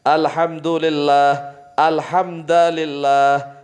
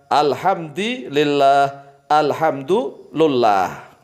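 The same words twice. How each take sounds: No difference in how they are said.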